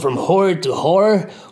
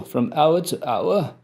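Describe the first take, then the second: First: Hour is said the old way, like 'whore'. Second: Hour is said the modern way, like 'our'. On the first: The speaker calls it right. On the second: The speaker calls it wrong.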